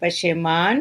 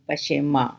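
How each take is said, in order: First: The word ends with a full n sound. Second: The word ends with a nasalized vowel.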